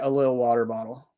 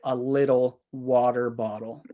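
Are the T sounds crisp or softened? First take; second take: softened; crisp. First: The T sounds are softened and blended. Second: The T sounds are pronounced crisply and clearly. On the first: This is casual everyday speech. "naturally I would say" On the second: This is for listeners with weaker English. "speaking clearly, I would say"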